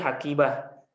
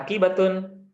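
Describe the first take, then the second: First: The word ends cut short with an h. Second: The word ends with a full tun syllable. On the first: "Kalau ini dimaktikan berarti hakibah" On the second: "kalau dibaca akhirnya ya hakibatun"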